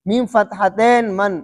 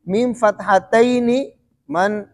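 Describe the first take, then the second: First: The word ends in a consonant, with no final vowel. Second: The word ends with an added final 'ee' vowel. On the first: This is the everyday colloquial way of saying it. "आमिया वाले किस तरह बोलते हैं?" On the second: This is the formal classical way of saying it. "जो सही फुसहा वाले हैं वो क्या बोलते हैं?"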